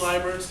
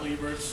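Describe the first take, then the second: First: The name has an Americanized, non-German pronunciation. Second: The name has a German pronunciation. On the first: The speaker calls it right. "it's pronounced Liebert" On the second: The speaker calls it wrong. "not Liebert. I know it's the German"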